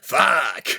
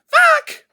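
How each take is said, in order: First: It is said in a Crazy Taxi-style voice. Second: It is said in a high-pitched voice.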